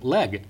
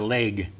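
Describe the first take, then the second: First: The word has a standard vowel. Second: The word has a Hoosier vowel. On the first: The speaker calls it right. "we should be saying leg" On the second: The speaker calls it wrong. "this is a Hoosier way of talking"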